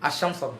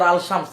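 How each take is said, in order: First: The L of the article is merged into the SH. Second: The L of the article is clearly pronounced. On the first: The speaker calls it right. "লাম কাটা" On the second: The speaker calls it wrong. "ভুল উচ্চারণ করছে"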